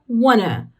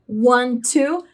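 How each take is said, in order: First: The words run together into one reduced word. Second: Two separate words are said in full. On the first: This is the fast, informal spoken form. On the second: This is the full, formal way of saying it.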